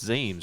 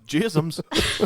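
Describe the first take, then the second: First: The name begins with a Z sound. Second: The name begins with a J sound. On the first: The speaker calls it right. "I'm pretty sure it's Zeems" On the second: The speaker calls it wrong. "I would say uh, Jisms ... and I would be wrong"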